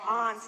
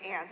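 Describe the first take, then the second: First: It is said in a New England accent. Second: It is said without a New England accent. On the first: This is how the speaker says it. "I have uh, New England parents because I say aunts" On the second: This is how others usually say it. "instead of aunts"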